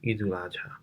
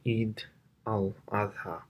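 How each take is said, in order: First: The middle syllable is said as 'ul'. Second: The middle syllable is said as 'al'. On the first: This is the form used in Bangla. "when it came into Bangla, it became Idul Adha" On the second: This is the original Arabic form. "that's the proper way of saying it in Arabic"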